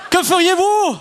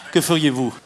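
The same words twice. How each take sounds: First: Interpellation pressante. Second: Said in the usual way. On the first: Shown as a demonstration. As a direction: question lancée bien plus haut. Question relancée avec urgence. (question pressante, voix haut perchée)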